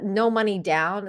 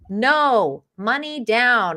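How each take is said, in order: First: It is said without a pause after no. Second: There is a pause right after no.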